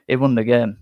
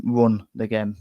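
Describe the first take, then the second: First: Said in the usual way. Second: "won" started with an R sound, like "run", said slowly. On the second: Shown as a demonstration. Correcting the chat that Patterson ran the game, "won" sounding like "run". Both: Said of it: "Won with an R".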